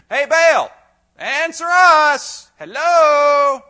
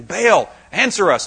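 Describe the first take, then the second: First: High, loud, stretched-out call; louder mock call. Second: Said in the usual way. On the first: Preacher mocking the prophets shouting louder to Baal. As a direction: drag it out like yelling into the void. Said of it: "So say it louder". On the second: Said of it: "four hundred fifty guys saying".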